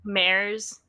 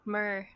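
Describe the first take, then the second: First: The syllable rhymes with 'air'. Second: The syllable rhymes with 'her'. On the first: The speaker calls it wrong. "it's always like mares" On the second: The speaker calls it right. "no, mer, like mermaid"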